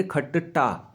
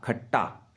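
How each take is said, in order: First: खट्टा with a doubled ट, said softly; teacher models खट्टा with a doubled ट; halant demo. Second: खट्टा repeated lower and much softer, ट held; softer lower echo of खट्टा; halant repeat. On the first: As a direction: say खट्टा with a held ट, quietly. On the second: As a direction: echo खट्टा quietly with a doubled ट. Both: Shown as a demonstration. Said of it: "क्या बोलेंगे?".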